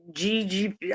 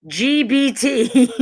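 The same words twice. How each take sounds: First: "G G P" stumbled and mumbled softly as a wrong try; fumbled acronym. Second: "G B T" spelled out slowly and louder, each letter separated; slow, deliberate letter by letter "G B T"; careful correction. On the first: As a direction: trips over the letters, trailing off quietly. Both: Real, not acted. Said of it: "I can't even say that shit".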